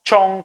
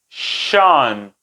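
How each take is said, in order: First: The ending begins with a ch sound. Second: The ending begins with a sh sound. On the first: The speaker calls it wrong. "nosotros tendemos a pronunciarlo de una manera incorrecta" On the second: The speaker calls it right. "un sonido más sutil, es un sonido fricativo que se desliza entre los dientes y es así"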